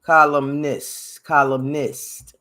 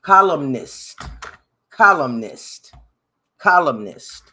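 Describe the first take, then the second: First: "Columnist" slowly, syllable by syllable, kol-um-nist; deliberate slow "Columnist", checking each sound; careful pronunciation. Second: "Columnist" said louder and sure, kol-um-nist; louder self-assured "Columnist" after practice; confident pronunciation. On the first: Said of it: "Let me say it". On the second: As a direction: declare "Columnist" loudly, now certain of it. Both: Shown as a demonstration.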